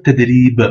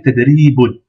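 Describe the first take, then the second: First: "ted, ri, b" cut off on the b; long "ri", then stop dead on b; blocked last letter. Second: "ted, ri, boun" ending on a sounded "oun"; long "ri", then the final "boun" fully voiced; full word ending. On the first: Teacher showing the preferred pause form, "ted, ri, b" ending on b. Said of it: "On bloque la dernière lettre". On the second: Teacher reading the word as written, ending fully pronounced "boun". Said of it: "Mais il est mieux de dire". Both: Shown as a demonstration.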